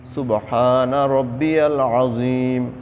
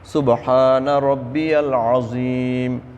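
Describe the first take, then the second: Both takes have the same delivery.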